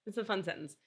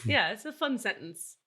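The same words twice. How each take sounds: First: Repeated much softer, under the breath. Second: Said in the usual way. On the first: Shown as a demonstration. Repeating her own line to herself, quietly. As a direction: murmur it back to yourself.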